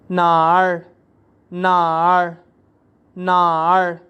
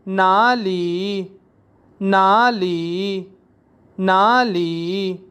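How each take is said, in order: First: नार said short and quick; teacher shows regional variant; alternate pronunciation. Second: नाली drawn out very slowly, syllable by syllable; teacher drilling नाली slowly; Chinese pronunciation drill. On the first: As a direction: clip नार as one syllable. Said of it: "और बाज़ नाड़ बोलते हैं". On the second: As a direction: stretch नाली out for learners. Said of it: "बाज़ Chinese वेयर को नाली बोलते हैं". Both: Shown as a demonstration.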